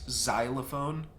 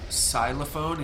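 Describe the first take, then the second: First: The word begins with a Z sound. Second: The word begins with a plain S sound. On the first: The speaker calls it right. "more like a a Z sound" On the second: The speaker calls it wrong. "it's not xylophone"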